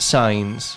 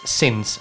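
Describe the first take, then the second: First: It has a long vowel and a final z. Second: It has a short vowel and a final s. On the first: The speaker calls it wrong. "many people tend to say signs" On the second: The speaker calls it right. "So it's since"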